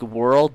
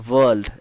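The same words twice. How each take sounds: First: The word is said in a standard accent. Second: The word is said in an Indian-style accent. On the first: "instead of saying like" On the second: "they'll say"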